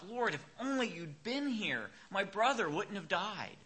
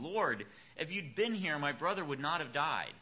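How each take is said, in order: First: It is said with grief and strong feeling. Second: It is read plainly, without emotion.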